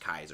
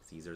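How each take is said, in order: First: The name begins with a K sound. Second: The name begins with an S sound. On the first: The speaker calls it right. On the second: The speaker calls it wrong.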